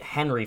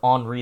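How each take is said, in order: First: The name is pronounced the English way. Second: The name is pronounced the French way. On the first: The speaker calls it wrong. "I was mistakenly calling it Henry" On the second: The speaker calls it right. "I found out it was Henri this morning, ... because it's French"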